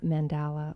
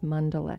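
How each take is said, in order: First: It is said with the common American pronunciation. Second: It is said with the Sanskrit pronunciation. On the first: This is how most people in America say it. "most people in America say uh, mandala" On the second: This is the original form of the word. "supposedly the Sanskrit pronunciation is mandala"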